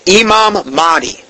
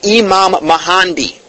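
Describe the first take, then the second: First: The second word has two syllables without an n. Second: The second word has three syllables with an n. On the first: The speaker calls it right. "It was Imam Mahdi" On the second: The speaker calls it wrong. "I was saying Imam Mahandi"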